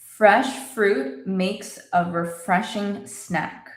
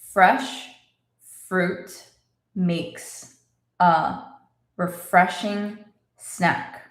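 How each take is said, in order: First: The sentence is spoken a little faster. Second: The sentence is spoken slowly. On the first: "A little faster" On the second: "Let's say it slowly"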